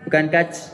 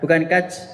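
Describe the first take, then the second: Both takes have the same delivery.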